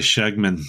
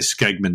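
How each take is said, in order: First: The name begins with an 'sh' sound. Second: The name begins with an 'sk' sound. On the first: This is the intended pronunciation. The speaker calls it right. "it tells you how to say Shegman" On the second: This is how people would mispronounce it. The speaker calls it wrong. "nobody's going to be able to pronounce it. They're all going to say Skegman knives"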